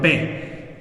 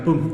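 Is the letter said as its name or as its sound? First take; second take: name; sound. First: The letter is said as its full name. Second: The letter is said as its bare sound. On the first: "se llama P" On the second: "suena diferente, suena P"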